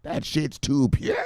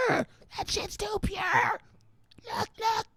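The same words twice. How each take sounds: First: Said in the usual way. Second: Much higher, slow, strained squeal; mock wail. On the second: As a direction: squeal it out overwhelmed. Repeated line, squealed wail.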